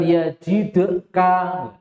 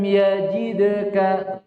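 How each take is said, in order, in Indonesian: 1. Bunyi d mendapat pantulan yang kuat dan berat. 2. Bunyi d mendapat pantulan yang ringan dan lembut. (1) "bukan yajidka" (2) "qalqalah sughra lebih ringan"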